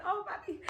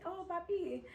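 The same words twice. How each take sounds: First: High, playful echo of Oh, Papi; mock mechanic reply. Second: High, soft coaxing Papi; butter him up lightly; sweet-talking. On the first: Mechanic playfully echoing her greeting, high. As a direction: toss it back teasing. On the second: Retold or imitated. Sweet-talking the car shop guy, high and soft.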